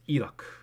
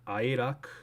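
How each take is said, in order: First: The word begins with an 'ee' sound. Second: The word begins with an 'eye' sound. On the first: The speaker calls it right. "it's not I when you pronounce it anyways" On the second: The speaker calls it wrong. "it's not Iraq"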